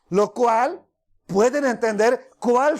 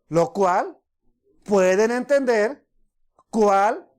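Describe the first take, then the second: First: It is read at a normal, quicker pace. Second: It is read slowly and deliberately. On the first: The speaker calls it wrong. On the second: The speaker calls it right.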